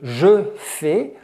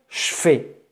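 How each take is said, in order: First: The pronoun is said fully with its vowel. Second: The pronoun is reduced to a 'ch' sound. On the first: "À la place de" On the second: "va se prononcer ch"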